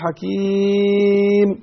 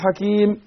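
First: The long vowel is stretched out, about twice as long. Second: The long vowel is held briefly, ending in silence. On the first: "ممكن أنا بقرأ أقف على 4 حركات" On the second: "ممكن أقف بالسكون المحض على حركتين"

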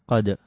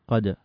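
Both takes have the same delivery.

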